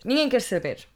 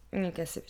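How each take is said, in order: First: "Ninguém quer saber" said louder with ninguém punched; emphatic repeat. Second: Said in the usual way. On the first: Shown as a demonstration. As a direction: hit "Ninguém" hard the second time.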